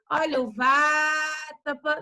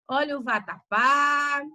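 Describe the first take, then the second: First: The stress falls before the last syllable. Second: The stress falls on the last syllable. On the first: The speaker calls it wrong. "você não vai dizer" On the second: The speaker calls it right. "Olha o acento onde está"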